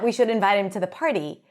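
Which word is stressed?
We. The word we is stressed with higher pitch. Those speaking, not others, should invite him. "it should be us who invite him to the party"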